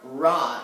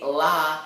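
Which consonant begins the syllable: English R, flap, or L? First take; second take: English R; L. First: It starts with an English-style R sound. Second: It starts with a clear L sound. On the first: "it's not ra" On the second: "Please do not say la ... like with an L"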